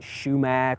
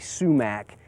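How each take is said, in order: First: It starts with sh and ends in mack. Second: It starts with s and ends in mack. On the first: "some people may pronounce it shumac" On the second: "generally sumac is more accepted"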